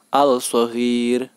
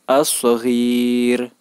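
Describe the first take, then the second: First: The L is pronounced clearly before the S. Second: The L merges into a doubled S sound. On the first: The speaker calls it wrong. "Tidak boleh dibaca al-saghir" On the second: The speaker calls it right. "cara membacanya adalah as-saghiru"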